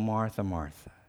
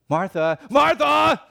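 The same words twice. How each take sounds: First: It is said gently and tenderly. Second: It is said harshly, like a scolding.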